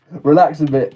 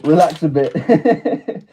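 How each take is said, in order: First: Said in the usual way. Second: "relax a bit" drawn out slowly through a laugh, rising at the end. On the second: Real, not acted. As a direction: say "relax a bit" slowly while chuckling, ending on a lift.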